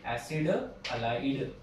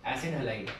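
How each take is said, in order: First: Slow dictation. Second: Said in the usual way. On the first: Shown as a demonstration. Teacher repeats name slowly.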